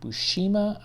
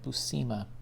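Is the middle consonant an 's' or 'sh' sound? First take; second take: sh; s. First: The middle consonant is an 'sh' sound. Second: The middle consonant is a plain 's' sound. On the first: "pronounced like a S H" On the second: "I've also heard it"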